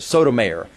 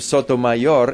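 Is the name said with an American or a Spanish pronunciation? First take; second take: American; Spanish. First: The name is said with American English sounds. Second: The name is said with Spanish-style sounds. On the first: This is how many Americans expect it said. "more American pronunciation of something like" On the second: This is how the name's owner says it. "she pronounces her name Sotomayor"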